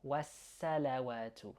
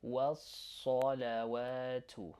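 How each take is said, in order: First: Wassalawatu with a front A after the S, as in sat; light S in wassalawatu. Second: Wassalawatu slow, with saw after a held S; heavy S in wassalawatu. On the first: Teacher showing what not to say, light wassalawatu. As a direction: keep the S of wassalawatu thin. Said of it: "try not to say". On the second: Teacher asking learners to imitate, heavy slow wassalawatu. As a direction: darken and stretch the S syllable of wassalawatu. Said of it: "Try to imitate". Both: Shown as a demonstration.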